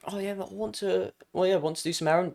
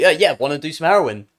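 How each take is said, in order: First: Hesitant, soft nervous pick-up attempt. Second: Said in the usual way. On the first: Streamer acting out asking a girl at rehab, nervous. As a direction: say it timidly, much softer, faltering. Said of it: "not in that nervous tone". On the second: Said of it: "Don't, not in that nervous tone".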